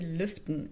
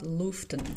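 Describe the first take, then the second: First: The first vowel is a rounded front ü. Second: The first vowel is a plain back u. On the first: The speaker calls it right. "how to say lüften" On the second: The speaker calls it wrong. "and not luften"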